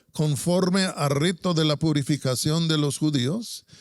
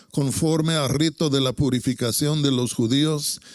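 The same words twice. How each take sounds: No difference in how they are said.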